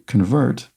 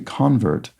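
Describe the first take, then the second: First: The stress is on the second syllable. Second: The stress is on the first syllable. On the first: It is the verb, to change something. "when you say convert, you, that's a verb" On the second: It is the noun, someone who has been converted. "but when you say convert, that's a noun"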